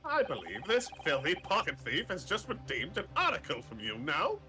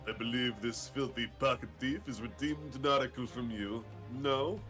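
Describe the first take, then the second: First: It is said in a plain voice. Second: It is said in a stuffy voice.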